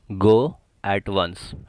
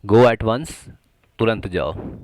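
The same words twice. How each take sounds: First: Very slow, syllable by syllable; slow drill. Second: Louder, punchy command; emphatic. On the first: Teacher drilling the phrase for students, very slowly. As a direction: draw each word out for learners. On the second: Teacher stressing the urgency of the command, loudly. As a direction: fire it off like a real order. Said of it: "at once यानी कि अभी के अभी". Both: Shown as a demonstration.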